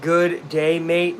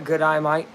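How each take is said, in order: First: Said in the usual way. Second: "good eye, mate" with Aussie vowels; Australian accent. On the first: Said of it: "the real one is good day". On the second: Shown as a demonstration. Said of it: "without sounding Australian".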